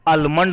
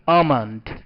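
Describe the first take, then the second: First: The L sound is pronounced. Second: The L sound is left out. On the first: The speaker calls it wrong. "आलमंड नहीं" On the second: The speaker calls it right. "ल silent रहेगा"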